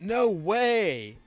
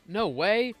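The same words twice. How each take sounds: First: The words are drawn out long. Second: The words are said quickly.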